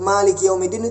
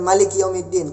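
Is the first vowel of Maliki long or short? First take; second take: long; short. First: The first vowel of Maliki is long. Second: The first vowel of Maliki is short. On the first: "Kenapa enggak panjang?" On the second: "Kenapa pendek?"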